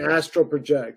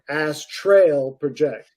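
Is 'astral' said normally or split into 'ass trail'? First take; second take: normal; split. First: The word astral is said the ordinary way. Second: The word is split into 'ass' and 'trail'. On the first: "he wouldn't say astral project" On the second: "He would say ass trail project"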